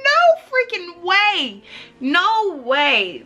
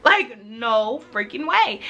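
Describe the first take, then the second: First: Much higher and louder, stretched slowly; slow, high, loud no freaking way; stunned disbelief. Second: Said in the usual way. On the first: Retold or imitated. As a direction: gasp it out in shock. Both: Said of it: "I was like".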